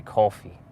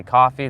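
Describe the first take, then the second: First: "coffee" with a rounded, Brooklyn-style oh-aw vowel. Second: "coffee" said KAH-fee, open first vowel. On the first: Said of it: "he's got the Brooklyn accent". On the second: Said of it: "you'll know when you hear coffee". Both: Shown as a demonstration.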